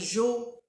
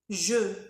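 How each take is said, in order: First: The word has an o vowel sound. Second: The word has an e vowel sound. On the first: The speaker calls it wrong. "Il faut pas dire jo ou jus. Non, c'est faux" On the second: The speaker calls it right. "il faut respecter euh, le son E"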